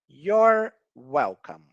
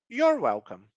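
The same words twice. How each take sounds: First: The phrase is said slowly and carefully. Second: The phrase is said quickly and run together.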